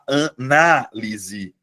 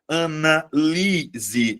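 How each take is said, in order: First: The stress is on the third-to-last syllable. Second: The stress is on the second-to-last syllable. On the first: It is the noun 'analysis'. "você muda a posição da sílaba tônica" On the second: It is the verb 'analyze'. "a sílaba tônica é a anterior, é a penúltima sílaba"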